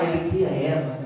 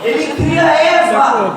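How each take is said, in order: First: "Ele cria Eva" said low and soft, almost to himself; quiet aside. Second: "Ele cria Eva" slow, loud, laughing shout; big announcement. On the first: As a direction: drop it to a low murmur. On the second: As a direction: proclaim it slowly, with a laugh. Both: Shown as a demonstration.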